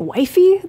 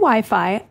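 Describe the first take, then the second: First: It is said the way other countries say it. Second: It is said the usual American way. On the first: This is how people elsewhere say it. The speaker calls it wrong. "In some places they say wifey" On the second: This is how people here say it. The speaker calls it right. "Here we say Wi-Fi"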